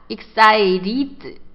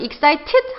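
First: The middle T is a soft, flapped sound. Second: The middle T is a crisp, clear T. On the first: "약간 T 발음을 굴리고 싶다. excited 정도로 하시면 되고" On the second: "이것도 마찬가지로 excited 하셔도 되고요"

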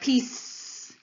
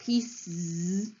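First: The word ends in a bare s sound. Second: The word ends in a bare z sound. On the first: "We can have s, which would sound like piece" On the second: "You can either say z, which would sound like pieces"

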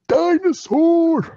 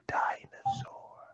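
First: The word is said big and loud. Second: The word is said small and quiet.

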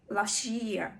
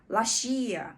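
The two takes are said the same way.

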